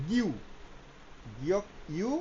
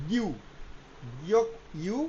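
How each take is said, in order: The two takes are said the same way.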